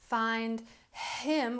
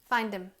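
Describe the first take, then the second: First: The H sound at the start of him is pronounced. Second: The H sound is dropped, leaving just 'im. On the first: The speaker calls it wrong. "Instead of saying find him" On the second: The speaker calls it right. "we don't hear that sound. We just sound like im"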